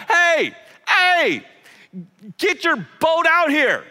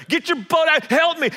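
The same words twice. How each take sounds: First: Much higher and louder, calling across water; yelling to partners. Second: High, loud call across water; yelling to partners. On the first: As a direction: shout to the other boat far off. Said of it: "starts to yell at his business partners". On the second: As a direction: shout for help to the other boat. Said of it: "starts to yell". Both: Retold or imitated.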